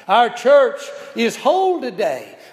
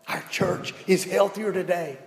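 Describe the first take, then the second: First: "whole" punched loud and high; stress on whole. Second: Said in the usual way. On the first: Shown as a demonstration. Preacher to church, hitting "whole" loudly. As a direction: lean hard on "whole", let it ring.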